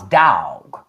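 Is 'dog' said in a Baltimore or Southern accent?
Southern. It is said with a Southern drawl. "But when you down south"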